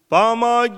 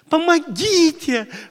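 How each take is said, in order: First: The cry sounds distant and detached. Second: The cry sounds emotional and personally involved.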